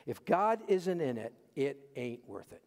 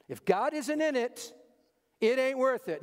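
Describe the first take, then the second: First: Said in the usual way. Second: "If God isn't in it, it ain't worth it" higher and louder, "worth" hit hard; emphatic refrain. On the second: Shown as a demonstration. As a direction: preach it with punch on "worth". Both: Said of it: "I'm doing it for emphasis".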